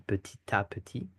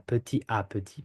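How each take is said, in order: First: Petit à petit linked with T, peti-ta-peti; French liaison with T. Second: Petit à petit with no T, peti-a-peti; French without liaison; no liaison, wrong. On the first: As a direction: carry the T of petit into à. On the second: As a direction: leave petit and à apart, no T. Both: Shown as a demonstration. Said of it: "We don't say".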